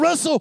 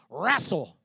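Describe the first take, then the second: First: It is said in his ordinary accent. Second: It is said in a West Texas accent.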